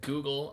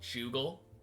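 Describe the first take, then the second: First: The word begins with a hard G sound. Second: The word begins with a soft J sound. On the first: "instead of pronouncing it Google" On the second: "I pronounced it Jugal, like a J, a J sound, like a soft G"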